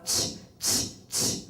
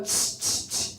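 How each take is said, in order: First: Sharp unvoiced tongue clicks to shoo a dog; dog-scaring tch clicks. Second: Tongue clicks at dog. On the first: Shown as a demonstration. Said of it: "how you would get them to go away is you would go". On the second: Retold or imitated. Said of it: "So I go".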